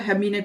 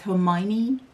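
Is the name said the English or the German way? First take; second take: German; English. First: The name is pronounced the German way. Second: The name is pronounced the English way. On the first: The speaker calls it wrong. "that was the German pronunciation" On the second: The speaker calls it right. "in the English one"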